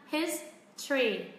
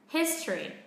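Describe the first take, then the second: First: Both syllables are said evenly without stress. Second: The first syllable is stressed, the second falls. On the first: "mình sẽ đọc hoàn toàn không có trọng âm nhá" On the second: "bắt đầu mình mới lên giọng và xuống giọng"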